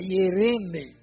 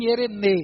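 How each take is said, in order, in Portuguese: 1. A tônica está na sílaba do meio. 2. A tônica está em outra sílaba. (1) "tem pessoas que fazem a tônica do segundo E" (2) "Tem pessoas que pronunciam ierene"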